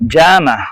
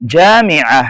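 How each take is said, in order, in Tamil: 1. jamia சொல் சுருக்கப்பட்ட வளைகுடா பேச்சு வழக்கு வடிவத்தில் சொல்லப்படுகிறது. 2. jamia சொல் முழுமையான நிலையான அரபு வடிவத்தில் சொல்லப்படுகிறது. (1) "கல்ஃப் டயலக்ட்ல சொல்லுவாங்க" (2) "ஸ்டாண்டர்ட் அரபிக்ல"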